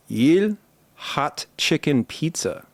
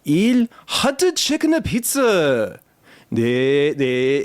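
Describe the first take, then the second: First: Put-on slow, careful Korean accent. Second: Put-on high, slow, heavy Korean accent. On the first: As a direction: spell it out slowly in a Korean accent. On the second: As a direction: lean really hard into a Korean accent. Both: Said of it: "leaned really hard into my best Korean accent".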